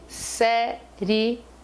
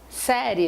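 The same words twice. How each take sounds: First: The word is said in three syllables. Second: The word is said in two syllables. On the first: The ending is a hiatus. "Se eu separar a sílaba da palavra série" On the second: The ending is a rising diphthong. "eu tenho duas sílabas"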